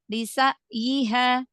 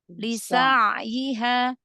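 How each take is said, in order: First: The middle consonant is an abrupt glottal catch. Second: The middle consonant flows on smoothly. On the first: The speaker calls it wrong. "tadi seperti hamzah" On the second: The speaker calls it right. "huruf bainnya pada ain sukunnya dialirkan biar tidak seperti hamzah"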